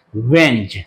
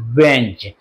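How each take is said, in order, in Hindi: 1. 'is' शब्द घटकर 'z' जैसी आवाज़ रह जाता है। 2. 'is' शब्द घटकर 'z' जैसी आवाज़ रह जाता है।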